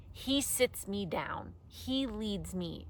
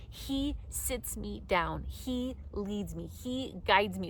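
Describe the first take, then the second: First: "He" and "he" leaned on, slow; stress on he. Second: Slow, each "he" given weight; stress on he. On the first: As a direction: slowly lean on "he" each time. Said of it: "I think it's funny that it says". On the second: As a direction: press "he sits", "he leads", "he guides". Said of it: "It doesn't say he, he lets me get there". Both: Shown as a demonstration.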